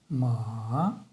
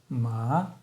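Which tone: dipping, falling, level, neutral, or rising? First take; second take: dipping; rising. First: The pitch dips low, then rises. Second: The pitch rises from middle to high. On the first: "нисходящий и восходящий тон" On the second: "восходящий тон"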